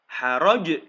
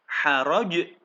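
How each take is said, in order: First: The word ends on a strong bouncing consonant. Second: The word ends on a strong bouncing consonant.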